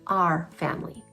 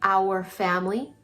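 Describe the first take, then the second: First: 'Our' is said like 'are', with one vowel sound. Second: 'Our' is said like 'hour', with two vowel sounds. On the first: "a lot of times in English we'll say our family" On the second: "when we say our family"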